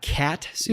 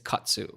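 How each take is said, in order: First: The first syllable sounds like the word cat. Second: The first syllable does not sound like cat. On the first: The speaker calls it wrong. "I say cat, like the feline" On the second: The speaker calls it right. "It is katsu"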